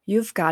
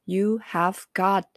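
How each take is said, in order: First: Have is contracted and the phrase is fluent. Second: Have is said in full and slowly.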